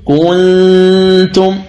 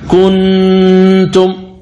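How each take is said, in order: First: كنتم with the ن hidden in a long nasal hum. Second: كنتم with the tongue set on the ن, sounded clearly; wrong clear n. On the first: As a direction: let the ن of كنتم hum through the nose. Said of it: "فتقول". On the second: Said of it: "وهذا خطأ". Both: Shown as a demonstration.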